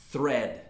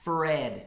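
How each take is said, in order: First: Thread with a clear tongue-between-teeth th. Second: Thread said with the lip, so it sounds like "Fred"; th made with the lip, thread becomes "fred". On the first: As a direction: say thread with the tongue under the teeth, not the lip. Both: Shown as a demonstration. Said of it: "usando o lábio".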